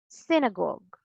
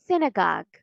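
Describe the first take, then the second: First: Synagogue as SIN-uh-gawg; British pronunciation. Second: Synagogue as SIN-uh-gahg; American pronunciation. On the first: Teacher shows it one more time, British pronunciation. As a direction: round the last vowel of synagogue. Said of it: "And in British English". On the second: Teacher shows it one more time, American pronunciation. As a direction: open the last vowel of synagogue. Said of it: "because in American English". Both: Shown as a demonstration.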